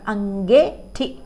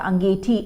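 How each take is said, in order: First: The middle vowel is an 'e' sound. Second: The middle vowel is a long 'ee' sound. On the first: This is the Kumaoni form. "हमारे कुमाऊनी में" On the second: This is the standard Hindi form. "अंगीठी कहते हैं ना हम लोग"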